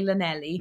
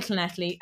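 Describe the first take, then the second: First: Llanelli with a plain English L; English pronunciation. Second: Llanelli with hissy Welsh double L; Welsh pronunciation. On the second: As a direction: say Llanelli the Welsh way, a breathy lateral hiss for Ll. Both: Shown as a demonstration. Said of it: "people in England will say Llanelli".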